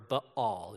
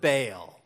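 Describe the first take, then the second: First: The name is said in a snooty, refined way. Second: The name is said in a plain, everyday way.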